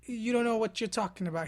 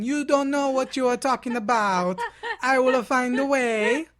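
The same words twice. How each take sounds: First: Said in the usual way. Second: Loud, hammed-up Italian accent, slowing down; mock Italian accent. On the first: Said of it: "And he said". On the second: Columbus shouting at the doubters in mock Italian accent. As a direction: play a boastful Italian sailor, loudly. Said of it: "He's Italian".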